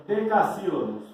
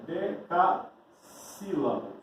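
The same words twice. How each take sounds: First: Said in the usual way. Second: "Decassílabos" lento, partido em de-ca-sílabos; sílaba por sílaba. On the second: Shown as a demonstration. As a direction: separe devagar as partes de "Decassílabos". Repete o termo separando sílabas. (termo ditado pausadamente, sílaba por sílaba)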